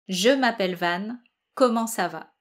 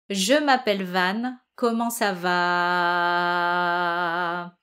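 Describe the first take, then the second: First: It is spoken normally with a short final syllable. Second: The final syllable is held long on a low note. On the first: "vous allez le parler" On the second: "soutenir la dernière syllabe, c'est-à-dire le va de comment ça va"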